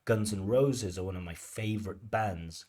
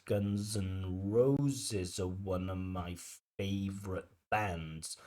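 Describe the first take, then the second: First: Guns N' Roses with its stressed words landing on the beat; sentence stress demo. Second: Slow Guns N' Roses with each stressed word marked; slow stress demo. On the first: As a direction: speak the sentence to a steady stress rhythm. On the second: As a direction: stretch the sentence so the stress beats stand out. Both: Shown as a demonstration. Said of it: "that's what we call stress timing".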